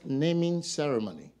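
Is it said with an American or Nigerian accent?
American. It is said in an American accent.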